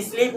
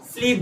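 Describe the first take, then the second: First: "स्लीप" said as "isleep"; wrong added vowel. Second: "स्लीप" as "sleep", no vowel in front; correct initial s. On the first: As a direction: put a short i before "स्लीप". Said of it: "स्लीप नहीं बोलते". ("स्लीप" को "इस्लीप" बोलकर) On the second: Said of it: "स्लीप बोलते हो". ("स्लीप" सीधे आधे स से) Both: Shown as a demonstration.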